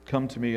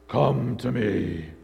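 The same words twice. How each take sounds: First: The voice is ordinary and light, not menacing. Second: The voice is deep, dark and menacing. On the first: "it didn't sound quite like" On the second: "It sounded more like Darth Vader"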